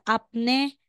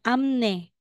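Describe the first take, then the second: First: The first syllable ends in a p sound. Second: The first syllable ends in an m sound. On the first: The speaker calls it wrong. "hindi siya apne" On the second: The speaker calls it right. "Magiging amne"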